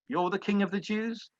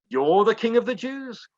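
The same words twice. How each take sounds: First: It sounds bored, like an uninterested Pilate. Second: It sounds surprised, like Pilate looking up.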